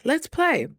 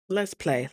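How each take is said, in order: First: High, lifted, eager invitation; playful urging. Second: Said in the usual way. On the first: Retold or imitated. Deciding to stay playful despite hard news, eager urging. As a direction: lift it up like a dare to have fun. Repeats resolve with more zest.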